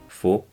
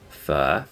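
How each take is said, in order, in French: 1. Il se prononce comme le mot français « faux ». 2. Il se prononce à la manière vietnamienne. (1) "et donc prononcé comme faux, eh bien c'est pas du tout ça en vietnamien" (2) "et se prononce fa"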